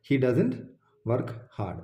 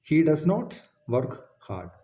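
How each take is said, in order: First: "doesn't" contracted into one syllable; short form doesn't. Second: "does not" said as two full words, not contracted; full form does not. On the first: ("doesn't" ചുരുക്കി ഒറ്റ വാക്കായി) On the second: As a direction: spell out "does not" in full, each word clear. ("does not" മുഴുവനായി രണ്ട് വാക്കായി) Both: Shown as a demonstration. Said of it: "does not-ിൻ്റെ short ആണ് doesn't".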